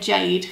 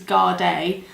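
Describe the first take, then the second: First: The name begins with a J sound. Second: The name begins with a hard G sound. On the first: The speaker calls it wrong. "I always want to say Jade because that, that little G looks like a J to me" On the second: The speaker calls it right. "but I think it's Guarday"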